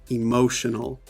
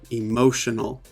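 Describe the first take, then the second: Both takes have the same delivery.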